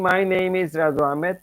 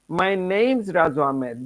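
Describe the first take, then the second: First: Name and is are said as separate words. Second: Name and is are joined into name's. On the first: The speaker calls it wrong. "instead of saying" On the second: The speaker calls it right. "use the contraction"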